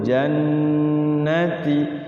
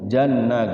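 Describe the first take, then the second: First: The double n is held with long nasal hum. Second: The double n is rushed and cut short. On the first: The speaker calls it right. "Jadi nahan dulu, gunnahkan dulu" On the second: The speaker calls it wrong. "tidak boleh buru-buru"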